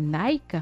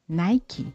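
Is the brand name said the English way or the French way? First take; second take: French; English. First: It is said with a French pronunciation. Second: It is said with an English pronunciation. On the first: This is the common habit of French speakers. The speaker calls it wrong. "tous les francophones le font" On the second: This is how the name is really pronounced. The speaker calls it right. "se prononce en réalité Nike"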